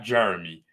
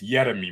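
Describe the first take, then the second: First: The name is said with an English pronunciation. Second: The name is said with a Dutch pronunciation. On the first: The speaker calls it wrong. "It's not Jeremy" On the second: The speaker calls it right. "it's Jeremy most likely"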